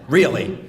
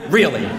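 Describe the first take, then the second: Both takes have the same delivery.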